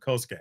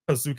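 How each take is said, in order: First: The name is not pronounced like 'Kazuke'. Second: The name is pronounced like 'Kazuke'. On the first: The speaker calls it right. "no, it's Kosuke" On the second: The speaker calls it wrong. "So I thought it was Kazuke"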